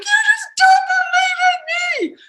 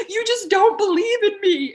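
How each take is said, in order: First: High, loud shouted accusation; much higher, louder shouted whine. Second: High, louder hurt accusation; higher, louder wounded whine; accusing whine. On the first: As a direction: yell it at him, hurt. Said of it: "I'd be like". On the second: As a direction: plead like you feel unsupported. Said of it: "where I'd be like". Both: Retold or imitated.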